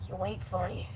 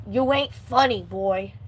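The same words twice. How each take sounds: First: Muttered aside. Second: Said in the usual way. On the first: Acted. Same line repeated, said aside.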